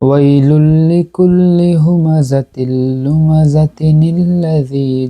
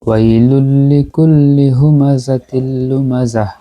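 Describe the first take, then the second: First: The reciter runs straight into the next word. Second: The reciter stops after lumazah. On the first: "পরে আবার এটাকে মিলিয়ে পড়ছি, মানে এখানে না থেমে পড়ছি" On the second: "আমি ফার্স্টে ওয়াকফ করছি আয়াতে"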